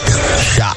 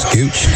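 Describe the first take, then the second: First: The name sounds like 'Shock'. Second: The name sounds like 'Scooch'. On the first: The speaker calls it right. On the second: The speaker calls it wrong. "Am I saying that right?"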